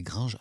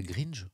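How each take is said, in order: First: "Gringe" with the French nasal "in" vowel; "Gringe" as "grain-zh", the n not sounded; corrected pronunciation. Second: "Gringe" with an "een" vowel, like grean-zh; "Gringe" read as "grinn-je", no nasal vowel; mispronounced Gringe. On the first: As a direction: say "Gringe" to rhyme with "linge". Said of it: "Ah, c'est Gringe, c'est ça". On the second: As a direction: say "Gringe" with a plain i and a sounded n. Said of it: "On dit pas Gringe, on dit Gringe". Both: Shown as a demonstration.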